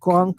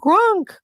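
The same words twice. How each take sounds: First: It is said plainly, with little feeling. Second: It is said with more feeling and energy.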